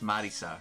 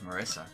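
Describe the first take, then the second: First: The name is said with Japanese pronunciation. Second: The name is said with English pronunciation. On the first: This is how Japanese speakers say it. "The way that they pronounce it is Marisa" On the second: This is how an English speaker says it. "I'm an English speaker, so I call her Marissa"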